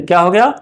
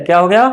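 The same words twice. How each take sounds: The two takes are said the same way.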